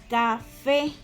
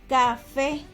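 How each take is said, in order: The two takes are said the same way.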